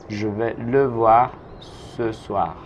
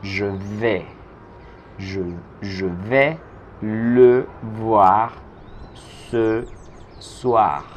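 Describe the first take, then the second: First: Slow, clear full sentence; slow model sentence. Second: Phrase by phrase with pauses; slow build-up. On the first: Teacher modelling the whole sentence slowly for the class. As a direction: say it whole and slowly for learners to copy. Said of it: "teacher repeats whole sentence". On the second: Teacher to Spanish-speaking students, slow phrase-by-phrase delivery. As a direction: build the sentence piece by piece for learners. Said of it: "teacher builds the sentence slowly". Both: Shown as a demonstration.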